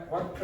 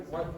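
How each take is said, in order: The two takes are said the same way.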